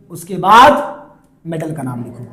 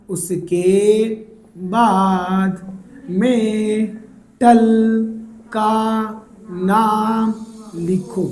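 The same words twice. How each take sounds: First: Said in the usual way. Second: Very slow, word by word with long pauses; slow dictation. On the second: Shown as a demonstration. Teacher drilling students on the naming step, slow dictation. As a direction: stretch each word out and pause after it.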